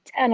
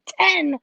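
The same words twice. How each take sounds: First: Said in the usual way. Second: High, loud echo of disbelief; incredulous. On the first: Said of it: "He's like". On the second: Retold or imitated. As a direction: repeat it back in mock shock. Retelling her reaction to early hour.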